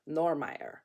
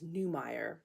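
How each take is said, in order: First: The name is said the High German way. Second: The name is said the English way.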